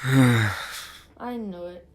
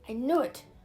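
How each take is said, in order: First: It is said flatly, without much energy. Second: It is said with lively enthusiasm.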